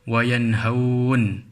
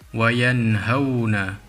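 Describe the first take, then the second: First: The word ends on a bare n sound. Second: The word ends with a final vowel after n. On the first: The reading stops at this word. "wakaf, iaitu ketika berhenti" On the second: The reading continues without stopping. "Wayanhauna dibaca dalam keadaan wasal"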